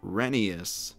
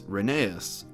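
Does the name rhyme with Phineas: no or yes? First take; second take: yes; no. First: The name rhymes with Phineas. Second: The name does not rhyme with Phineas. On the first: The speaker calls it right. "the correct pronunciation is Rheneas, kind of like Phineas" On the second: The speaker calls it wrong. "you've been saying his name incorrectly this whole time"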